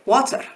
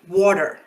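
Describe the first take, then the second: First: The R sound is rolled. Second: The R sound is pronounced but not rolled. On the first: "if I imitate that accent, I might say water and roll that R sound" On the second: "If you're American, you'll probably say water"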